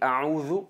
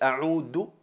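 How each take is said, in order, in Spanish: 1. La última consonante es un sonido th suave. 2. La última consonante es un sonido d simple. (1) "me refugio" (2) "a'udhu en árabe es volver o regresar"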